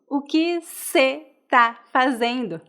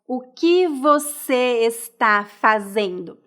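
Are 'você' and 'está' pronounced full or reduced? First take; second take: reduced; full. First: Você and está are reduced to cê and tá. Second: Você and está are pronounced in full. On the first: "Geralmente nós falamos" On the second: "raramente nós falamos"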